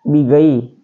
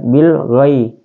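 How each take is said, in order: First: The l sound is dropped before gh. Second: The l sound is clearly pronounced before gh. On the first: The speaker calls it wrong. "Tidak boleh bigai" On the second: The speaker calls it right. "Maka harus dibunyikan bilghah"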